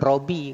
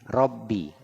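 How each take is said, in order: First: The b sound is short and single. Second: The b sound is held long and doubled. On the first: The speaker calls it wrong. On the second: The speaker calls it right.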